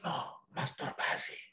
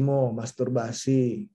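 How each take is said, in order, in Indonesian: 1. Frasa itu dibisikkan dengan sangat pelan. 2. Frasa itu diucapkan dengan lantang dan lebih jelas.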